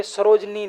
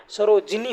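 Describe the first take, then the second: First: सरोजनी said with a short plain ज, no इ vowel; wrong spelling said. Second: सरोजिनी with a clear इ after ज, सरो-जि-नी; सरोजिनी pronounced carefully as the correct form, जि stressed; correct spelling said. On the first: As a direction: read सरोजनी as the mistaken form, सरोज-नी. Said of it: "सरोजनी नहीं होता है". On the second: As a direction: spell out सरोजिनी with the jee sound clearly voiced. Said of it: "सरोजिनी होता है". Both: Shown as a demonstration.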